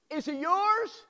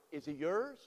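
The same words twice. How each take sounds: First: Pushed up high and urgent; higher, pressing question. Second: Said in the usual way. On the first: Shown as a demonstration. Preacher repeating question.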